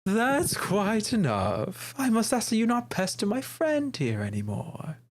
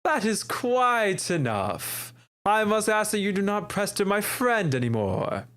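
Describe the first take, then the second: First: Higher, slow imitation of a prim gentleman; mock haughty voice. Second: Higher, very slow, hammed-up aristocrat; theatrical gentleman. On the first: Player imitating her friend's take on the dandy. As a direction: mimic the dandy's stiff delivery. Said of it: "You're like". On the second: Shown as a demonstration. Player showing a more theatrical dandy voice. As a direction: stretch every word like a stage dandy. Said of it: "add more theatrics to his voice".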